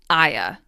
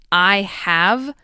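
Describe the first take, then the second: First: The word 'have' becomes a schwa. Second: Both words are said in full. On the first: "you don't change I have to I'ya" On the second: "you don't change I have"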